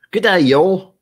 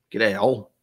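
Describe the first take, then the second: First: Loud, high Aussie greeting call; Australian accent. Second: Aussie greeting at everyday volume; Australian accent. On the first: Streamer hailing an Australian viewer, in loud Aussie accent. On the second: Streamer repeats the greeting to viewer, relaxed Aussie accent. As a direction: say it casually in a put-on Australian accent. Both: Acted. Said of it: "slip into an Australian accent".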